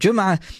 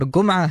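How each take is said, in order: First: It begins with a J sound. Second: It begins with a hard G sound. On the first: This is the standard way of saying it. "instead of Jum'a" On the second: This is the Egyptian way of saying it. "as the Egyptians would say"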